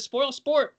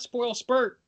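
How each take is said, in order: First: The second word has the vowel of 'sport'. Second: The second word has the vowel of 'spurt'. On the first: The speaker calls it right. "that word is spoil sport" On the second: The speaker calls it wrong. "not spoil spurt"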